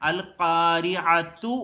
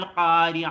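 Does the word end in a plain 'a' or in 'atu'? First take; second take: atu; plain a. First: The word ends in a 'tu' syllable. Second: The word ends in a plain 'a' vowel. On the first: The reciter runs straight on into the next verse. "Connect ചെയ്ത് കണ്ട് അടുത്ത ആയത്തിലേക്ക് ഓതുമ്പോഴോ" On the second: The reciter pauses after this word. "Stop ചെയ്യുമ്പോൾ അൽ ഖാരിയ എന്നാ ഓതുവോ"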